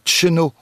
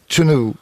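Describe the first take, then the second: First: A short two-syllable form with an initial ch sound. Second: Three syllables starting with ch and ending in u. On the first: "Dans le centre-Bretagne, on entend un tcheno" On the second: "Et à Groix"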